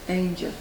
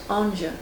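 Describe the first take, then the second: First: The name is said in the modern Dublin pronunciation. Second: The name is said in its French-style pronunciation. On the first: This is how locals say the street name today. "modern Dubliners pronounce the street name Ainger" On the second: This is the original form of the family name. "His name is French and is correctly pronounced Anger"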